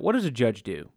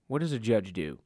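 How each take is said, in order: First: Said in the usual way. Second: Softer repeat of the question; quiet echo. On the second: Shown as a demonstration. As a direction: drop the voice and ask it again to yourself.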